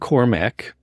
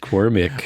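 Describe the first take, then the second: First: The last syllable has an 'a' vowel, like 'mack'. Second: The last syllable has an 'i' vowel, like 'mick'. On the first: The speaker calls it wrong. "it's not Cormac" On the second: The speaker calls it right. "It's Cormick"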